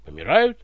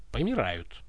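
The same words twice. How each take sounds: First: Said in the usual way. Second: Low, drawn-out after a pause; the tsar answers after a dramatic pause. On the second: Acted. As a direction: let the pause hang first. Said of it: "Выдержав драматическую паузу".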